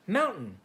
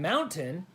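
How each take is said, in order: First: The middle T sound is dropped. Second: The middle T sound is clearly pronounced. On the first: "people from Utah often remove the T from words" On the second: "instead of saying"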